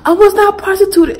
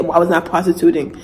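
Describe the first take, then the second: First: High, loud indignant protest; talking back. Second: Said in the usual way. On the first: Retold or imitated. Daughter talking back to her dad, high indignant protest. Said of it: "I was like". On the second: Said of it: "by the time I said".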